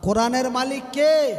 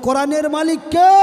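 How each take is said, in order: First: The question is spoken at a softer volume. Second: The question is spoken at a louder volume.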